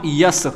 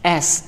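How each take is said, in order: First: It starts with a y sound, like yes. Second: It starts directly with a vowel sound. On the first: The speaker calls it wrong. "Not यस" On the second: The speaker calls it right. "It is एस"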